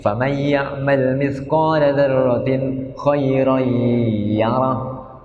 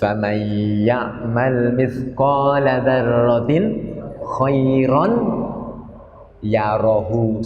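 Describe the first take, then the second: First: The last word stops short without the 'hu'. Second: The last word ends with a full 'hu' syllable. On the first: This is how it is recited by recitation rules. "karena kaidah tajwid sehingga menjadi" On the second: This is how the words are written in full. "Sebenarnya kalimatnya begitu"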